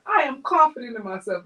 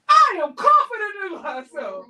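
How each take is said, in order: First: It is said quietly and timidly. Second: It is said loudly and strongly.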